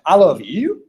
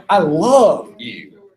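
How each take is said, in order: First: "you" accented with a rising, questioning lift; "you" stressed, pitch climbing at the end. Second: "love" drawn out long and punched, then falling; slow, heavy accent on "love"; stress on LOVE. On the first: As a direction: lean on the last word, "you", and lift it. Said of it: "if I accent this word". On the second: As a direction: stretch and hit the word "love", let "you" drop. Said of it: "accent this". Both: Shown as a demonstration.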